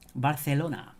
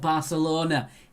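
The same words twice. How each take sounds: First: It is said without a Manchester accent. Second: It is said in a Manchester accent.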